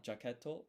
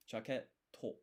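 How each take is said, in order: First: Said in the usual way. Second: Jaketo with a held stop before the to; pause before to. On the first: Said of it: "it's not jaketo". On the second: Shown as a demonstration. Teaching a Japanese word, jaketo with a clear pause before the to. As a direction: say jaketo as jaket, a beat, then to. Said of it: "You need that pause".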